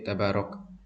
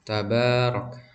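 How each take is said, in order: First: The vowel after b is cut short. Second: The vowel after b is held medium length. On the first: The speaker calls it wrong. "tidak terlalu cepat seperti tabarok" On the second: The speaker calls it right. "dibacanya dua harokat"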